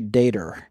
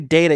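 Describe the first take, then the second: First: The word ends with an R sound. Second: The word ends without an R sound. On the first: The speaker calls it wrong. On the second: The speaker calls it right.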